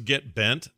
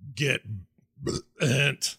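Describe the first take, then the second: First: It is said in a normal voice. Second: It is said as a burp.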